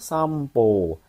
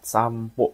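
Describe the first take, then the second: First: The final vowel is held long. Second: The final vowel is kept short. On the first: The speaker calls it wrong. "Hati-hati dengan nomor dua minasang ya" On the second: The speaker calls it right. "pokoknya pendek ya, jangan panjang"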